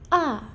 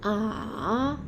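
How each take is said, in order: First: The pitch falls sharply and directly. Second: The pitch dips down then rises. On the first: "Jatuh seperti orang marah" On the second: "Nada tiga tuh turun terus naik"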